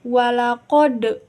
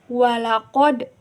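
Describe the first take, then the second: First: The final consonant has a strong, big bounce. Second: The final consonant has a small, light bounce. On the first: The speaker calls it wrong. "bukan gitu ... termasuknya ke qalqalah kubro" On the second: The speaker calls it right. "qalqalah sugro. Berarti pantulannya itu kecil"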